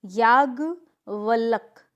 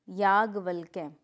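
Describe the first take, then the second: First: याज्ञवल्क loud and slow, ending on k; incorrect pronunciation. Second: याज्ञवल्क्य lower, ending in "kya"; correct pronunciation. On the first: Teacher showing a mistake, याज्ञवल्क without final ya. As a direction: stretch याज्ञवल्क as yaagya, valk. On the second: Teacher correcting the class, याज्ञवल्क्य with final ya. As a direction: say याज्ञवल्क्य as yaagya-valk-ye. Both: Shown as a demonstration. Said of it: "ठीक है".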